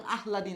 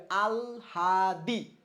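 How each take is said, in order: First: "আহলাদি" with h before l, quickly; wrong pronunciation. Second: "আলহাদি" very slow, syllable by syllable; correct pronunciation. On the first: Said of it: "এর উচ্চারণ আহলাদি না". ("আহলাদি" ভুল করে আগে হ, পরে ল) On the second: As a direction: stretch "আলহাদি" into aal... haa... dee. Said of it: "এর উচ্চারণটা কি হবে". ("আলহাদি" খুব ধীরে, আল-হা-দি করে) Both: Shown as a demonstration.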